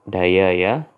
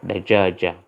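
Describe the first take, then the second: First: The middle consonant is a y sound. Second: The middle consonant is a j sound. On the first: This is how southern Iraqi speakers say it. "para penutur di sebelah selatan Irak mereka mengatakan kata dayaya" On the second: This is the standard form. "jim berubah menjadi ya"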